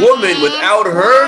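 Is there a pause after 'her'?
yes. There are pauses after 'woman' and after 'her'.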